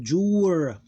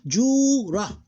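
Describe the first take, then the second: First: Jur drawn out slowly, ending on R with no vowel; one closed syllable. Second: Jura as high, loud long "juu" plus short "ra"; two separate syllables. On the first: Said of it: "ignore that one, become jur". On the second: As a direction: hold the first syllable of Jura, then a short "ra". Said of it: "Two different syllables". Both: Shown as a demonstration.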